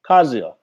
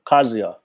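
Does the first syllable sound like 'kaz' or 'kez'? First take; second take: kaz; kaz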